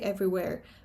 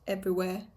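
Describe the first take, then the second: First: The final r is clearly pronounced. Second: The final r is dropped. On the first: "It should be everywhere, just to remain coherent" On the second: "but it's everywhere"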